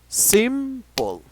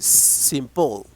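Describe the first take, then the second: First: The stress is on the first syllable. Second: The stress is on the second syllable. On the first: The speaker calls it right. "in the first syllable, there is a stress" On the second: The speaker calls it wrong. "or you say simple. No"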